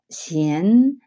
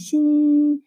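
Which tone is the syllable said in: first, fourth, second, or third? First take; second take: second; first. First: The syllable is said in the second tone. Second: The syllable is said in the first tone. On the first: "이성" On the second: "일성"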